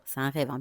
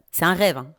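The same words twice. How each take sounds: First: Lower, softer repeat; quiet aside. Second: Firm, louder reminder; insisting. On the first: Repeating to viewers it's a dream, quiet aside. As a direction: drop it to a low aside. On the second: Telling viewers it's only a dream, firm insistence. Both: Shown as a demonstration. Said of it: "Bien sûr, je vous dis".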